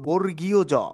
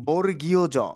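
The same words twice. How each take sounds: First: The name is said in full as two words. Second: The name is said in full as two words.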